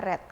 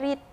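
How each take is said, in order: First: The vowel is short, like in 'red'. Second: The vowel is long, like in 'reed'. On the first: It is the past form of the verb. "verb kedua dibacanya read ... jadi dibacanya red bukan read" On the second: It is the present form of the verb. "Kalau verb satu dibacanya read"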